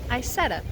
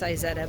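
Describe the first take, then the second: First: It is said in a regional, informal way. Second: It is said in the standard, technical way. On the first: This is how people from the speaker's home region say it. The speaker calls it wrong. "I'm from South Texas, so we say things a little funny around there" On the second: This is the technically correct pronunciation. The speaker calls it right. "Technically, it's Izetta"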